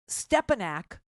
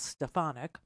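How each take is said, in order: First: The middle consonant is a p sound. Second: The middle consonant is an f sound. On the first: The speaker calls it wrong. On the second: The speaker calls it right.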